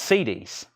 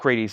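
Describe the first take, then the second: First: The word has no r sound after the first consonant. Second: The word has an r sound after the first consonant. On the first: The speaker calls it right. "So there's not an R" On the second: The speaker calls it wrong. "It's not Creedies"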